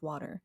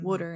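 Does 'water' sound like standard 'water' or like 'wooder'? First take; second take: standard; wooder. First: It is said with a standard 'water' sound. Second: It is said with a regional 'wooder' sound. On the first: The speaker calls it right. "make myself say water correctly" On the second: The speaker calls it wrong. "our accent is closer to Pennsylvania, which is why I say"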